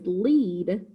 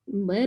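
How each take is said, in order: First: The vowel is long, as in need. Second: The vowel is short, as in bed. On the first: It means to go first. "If I pronounce this word as lead, that means to go first" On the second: It names a type of metal. "Lead is a type of metal"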